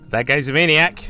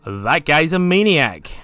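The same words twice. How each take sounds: First: It is said in a plain, less lively way. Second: It is said in an enthusiastic, lively way.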